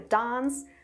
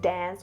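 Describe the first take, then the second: First: The word is said in a British accent. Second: The word is said in an American accent. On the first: The speaker calls it right. "like in the British tomato or dance" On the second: The speaker calls it wrong. "not like in the American dance"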